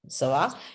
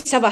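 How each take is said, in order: First: It sounds like a friendly, asking question. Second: It sounds impatient and dismissive, cutting someone off. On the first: It asks how the other person is. "how are you?" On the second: It tells someone that is enough. "okay, enough, enough, enough. I would, it depends on the tone"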